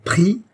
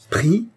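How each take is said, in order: First: Loud, very high incredulous cry; howled question. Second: High, choked, rising question; stunned disbelief shooting up in pitch; strangled voice. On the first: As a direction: yell it in outrage, pitch shooting upward. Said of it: "répéta-t-il dans un hurlement". (hurlement incrédule) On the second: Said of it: "d'une voix étranglée". (voix étranglée, incrédule) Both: A narrator's reading.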